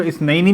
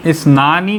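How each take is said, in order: First: "इस नईनी" with an ai glide before -ni; accusative-genitive ending. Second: "इस नानी" with a long aa before -ni; nominative ending. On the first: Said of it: "नसब में या जर में". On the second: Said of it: "जो इस नईनी भी बन सकता है". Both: Shown as a demonstration.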